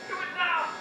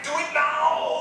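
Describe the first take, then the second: First: It is said in an ordinary voice. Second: It is said in a put-on horror voice.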